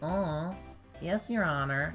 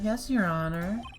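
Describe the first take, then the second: First: A weak attempt at a girly anime voice. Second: A stronger, more convincing girly anime voice.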